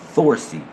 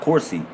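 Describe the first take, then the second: First: The word begins with a th sound. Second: The word begins with a k sound. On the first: The speaker calls it right. "we replace certain sacred words with the T H" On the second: The speaker calls it wrong. "It's not Corsi"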